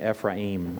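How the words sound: It is said in a Hebrew pronunciation. "or if you like the Hebrew pronunciation"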